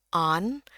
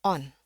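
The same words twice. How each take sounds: First: American open "on"; American accent. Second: British rounded "on"; British accent. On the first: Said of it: "yang American on". (aksen Amerika) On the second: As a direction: say "on" with a British vowel. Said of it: "yang British on". (aksen Inggris British) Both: Shown as a demonstration.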